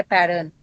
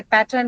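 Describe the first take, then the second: First: "pattern" with the middle t softened toward a d; American pronunciation. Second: "pattern" with a clear t in the middle; Indian pronunciation. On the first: Teacher imitating US-influenced speakers, American "pattern" with softened t. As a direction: say "pattern" the US way, like "paddern". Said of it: "they say pattern". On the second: Teacher contrasting Indian and US speech, Indian "pattern" with clear t. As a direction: say "pattern" the Indian way, t fully sounded. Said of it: "when we say pattern". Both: Shown as a demonstration.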